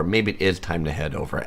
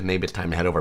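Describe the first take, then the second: First: "is" said in full and stressed. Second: Said in the usual way. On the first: Shown as a demonstration. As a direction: affirm it by leaning on "is". Echoes comment, affirming with IS.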